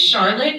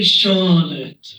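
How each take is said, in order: First: Said in the usual way. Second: Put-on CHARLOTTE with the R dropped, old-timey accent. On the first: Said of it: "but it's really Charlotte". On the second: Shown as a demonstration. Comedian mimics mom's friend's name, old-timey R-less accent. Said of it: "has an old-timey accent".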